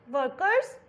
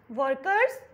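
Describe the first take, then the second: No difference in how they are said.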